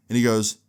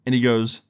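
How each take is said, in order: Both takes have the same delivery.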